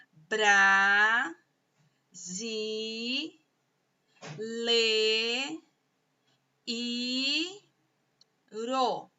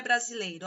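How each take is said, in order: First: "bra, zi, le, i, ro" each held long, pauses between; syllable by syllable. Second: Said in the usual way. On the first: Shown as a demonstration. Teacher dividing brasileiro for pupils, slow syllable by syllable. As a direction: sound out "brasileiro" in stretched, separate syllables. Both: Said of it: "sílaba por sílaba".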